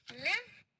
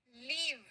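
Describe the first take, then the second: First: लिव with short i, pitched up; short-i live. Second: लीव with long ee, falling; long-ee leave. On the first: Teacher contrasting short and long vowels, लिव with short i. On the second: Teacher contrasting short and long vowels, लीव with long ee. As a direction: draw out the ee in लीव. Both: Shown as a demonstration. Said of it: "बड़ी ई छोटी ई होता है".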